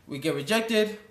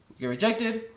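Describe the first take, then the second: No difference in how they are said.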